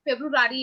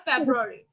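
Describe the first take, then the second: First: "ফেব্রুয়ারি" as feb-ru-RAA-ri; common mispronunciation. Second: "ফেব্রুয়ারি" compact, as feb-ra-ri, falling; correct pronunciation. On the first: Retold or imitated. Teacher showing how people say it, mispronounced. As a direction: say "ফেব্রুয়ারি" with a second R before the ending. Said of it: "এরকম ভাবে বলে ফেলে". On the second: Shown as a demonstration. Teacher giving the proper month name, pronounced compactly. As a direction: say "ফেব্রুয়ারি" short with no extra syllable. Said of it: "So এটা ফেব্রুয়ারি".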